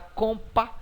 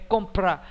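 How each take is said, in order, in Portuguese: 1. O som do r é omitido do encontro. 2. Tanto o p quanto o r são pronunciados juntos. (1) "Você não fala compa" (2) "é compra"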